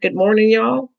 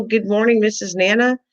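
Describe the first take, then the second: First: Bored, offhand greeting imitation; mimicking generic greeting. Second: Higher, sweet personal greeting; imagined warm greeting. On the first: Host mocking the chat's greeting to her, offhand. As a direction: toss off the greeting like you barely care. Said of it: "get a generic". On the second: Retold or imitated. Host imagining the chat greeting her sweetly. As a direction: greet her fondly, like a favourite. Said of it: "Did you go".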